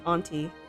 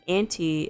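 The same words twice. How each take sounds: First: The word starts with a broad 'ah' vowel. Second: The word sounds like 'anti', with the vowel of 'ant'. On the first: "but I pronounce it auntie" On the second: "if you pronounce it as auntie, it would be anti-freeze"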